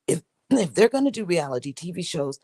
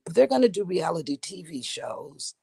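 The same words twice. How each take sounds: First: Said in the usual way. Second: Husky catch in the throat; frog in throat. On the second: Real, not acted. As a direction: talk through a frog in the throat. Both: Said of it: "let me clear my throat".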